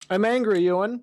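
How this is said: It is said in a soft, effeminate voice.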